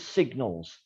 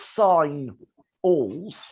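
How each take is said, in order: First: The first syllable is sig with a hard g. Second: The first syllable sounds like the word sign. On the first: "we pronounce it as signals" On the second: "because S I G N is sign"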